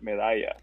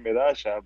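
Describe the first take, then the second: First: The double L sounds like 'y'. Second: The double L sounds like 'sh', Argentine style.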